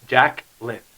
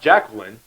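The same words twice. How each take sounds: First: The name is said like Jack plus lyn. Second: The name is said as standard Jacqueline. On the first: The speaker calls it right. "It's Jacqueline" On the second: The speaker calls it wrong. "It's not Jacqueline"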